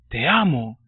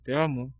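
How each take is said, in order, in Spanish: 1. Se dice con cariño, con una emoción profunda. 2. Se dice de forma casual, sin mucho sentimiento. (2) "No le dices así"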